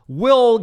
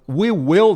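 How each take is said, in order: First: The two words are contracted into one syllable. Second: Both words are said fully and separately.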